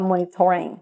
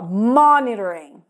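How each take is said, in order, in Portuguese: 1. A sílaba tônica fica em uma sílaba posterior. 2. A sílaba tônica fica na primeira sílaba. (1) "As pessoas vão entender se você falar monitoring" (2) "a parte mais forte tá no início"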